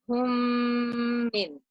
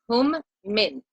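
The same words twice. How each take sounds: First: The m sounds merge, nasalized and held long. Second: The m sounds are cut apart with a stop. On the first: The speaker calls it right. "recite it correctly by blending the meme sakin into the meme shadda and holding the sound for two counts" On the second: The speaker calls it wrong. "I will recite it incorrectly first"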